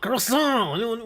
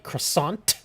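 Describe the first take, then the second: First: It is said with a French accent. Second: It is said with an American accent.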